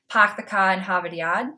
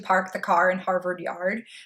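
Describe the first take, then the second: First: It is said in a Boston accent. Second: It is said in a standard American accent.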